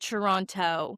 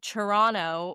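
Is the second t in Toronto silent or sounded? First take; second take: sounded; silent. First: The second t is clearly pronounced. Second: The second t is dropped, sounding like n. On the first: The speaker calls it wrong. "You don't pronounce it Toronto" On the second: The speaker calls it right. "The T at the end is, is silent, really. It pronounces an N"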